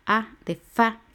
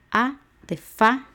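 Both takes have the same delivery.

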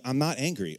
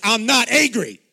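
First: Said in the usual way. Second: Loud, high mock-furious denial; angry outburst. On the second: Accused child finally letting the anger out, hammed-up shout. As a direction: blow up comically while denying it. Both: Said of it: "then the anger would come out".

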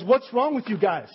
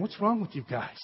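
First: Mildly raised, scolding coach; a coach in the locker room, a touch of anger; coach chewing out the team. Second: Softer, disbelieving rebuke; a quieter, let-down Nehemiah; Nehemiah scolding. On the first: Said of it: "the coach pulls everyone into the dressing room and says". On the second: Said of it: "And this is Nehemiah saying". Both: Retold or imitated.

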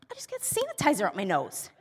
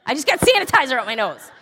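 First: Understated annoyance. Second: Louder, quicker mock outburst; exasperated outburst. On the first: Retold or imitated. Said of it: "he can tell that I'm visibly mad". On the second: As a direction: blurt it out fast and loud, half laughing. Fed-up comeback to husband, retold.

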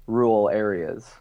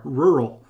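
First: "rural" said slowly with a clear Wisconsin R; rural said natively. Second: "Rural" tried with the extra R, stumbling; attempted rural. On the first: Real, not acted. [name] pronouncing "rural" like a local. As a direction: draw out "rural" with both Rs. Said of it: "Rural, I like it". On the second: Shown as a demonstration. Host failing to copy "Rural", stumbling attempt. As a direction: try to say "Rural" with both Rs. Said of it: "I can't even say it 'cause I have to have the other R".

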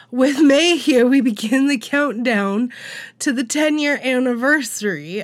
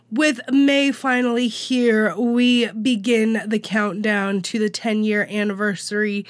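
First: Louder, clearer second take; restart louder. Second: Catching in the throat; choking. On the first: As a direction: start over with more force. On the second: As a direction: push through a tickle in the throat. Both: Real, not acted. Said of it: "Sorry, I'm choking on myself".

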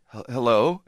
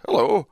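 First: Tentative, questioning hello with a stumble; hesitant greeting. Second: Higher, louder, falling hello; stranger's greeting. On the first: Tenant greeting a half-naked stranger upstairs, hesitant. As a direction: greet warily, as if unsure. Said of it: "I go". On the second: Half-naked stranger greeting the tenant back, unhesitating. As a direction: answer without any hesitation. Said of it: "he looks at me and goes". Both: Retold or imitated.

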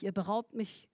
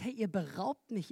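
First: Soft repeat landing on beraubt; stress on beraubt. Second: Ihr leaned on, quiet and pleading; soft accusation hitting ihr; stress on ihr. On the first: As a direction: let beraubt carry the hurt. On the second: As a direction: point the blame with ihr. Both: Acted. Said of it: "die Stelle sagt".

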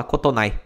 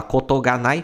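First: "kotonai" said quickly, the particle ga swallowed; casual contraction. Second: Said in the usual way. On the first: Shown as a demonstration. Teacher shows the casual spoken "kotonai" without the ga. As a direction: drop the ga and run it together as "kotonai". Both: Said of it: "Os japoneses acabam engolindo essa partícula".

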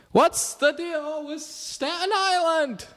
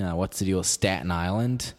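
First: High, slow yelled Seinfeld bit; Jerry Seinfeld. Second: Said in the usual way. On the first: Shown as a demonstration. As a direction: belt "What's the deal with Staten Island?" like a stand-up yell. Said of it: "Jerry Seinfeld impression if you yell like this". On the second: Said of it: "a Jerry Seinfeld impression".

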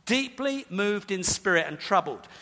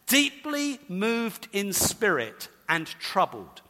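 First: Said in the usual way. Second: Slow, weighty reading. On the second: Shown as a demonstration. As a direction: let each word land slowly. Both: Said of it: "translated something like this".

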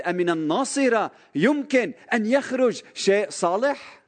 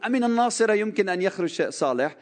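First: High, scornful mock question; bigoted sneer. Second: Mock quote. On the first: The zealous Nathanael scoffs at Nazareth, mock scornful. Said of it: "كان نثنائيل هيدا الشخص المتعصب". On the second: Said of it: "تصوروا واحد عم بيقول".

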